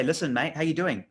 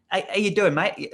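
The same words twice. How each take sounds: First: Said in the usual way. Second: Put-on higher, louder English accent slipping into Australian; botched English accent. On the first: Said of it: "do this in an English accent". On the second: Cold-calling a mate on the phone, bad English accent. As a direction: attempt English, land nearer Australian. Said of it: "got to do this in an English accent".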